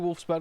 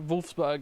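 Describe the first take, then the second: First: The name is said with English sounds. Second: The name is said with German sounds. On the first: "Let's say" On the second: "I don't want to overpronounce"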